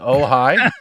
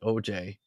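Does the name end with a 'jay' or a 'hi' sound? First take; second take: hi; jay. First: The name ends with a 'hi' sound. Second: The name ends with a 'jay' sound. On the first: The speaker calls it right. "is it Ojai?" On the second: The speaker calls it wrong. "Is that really how it's pronounced?"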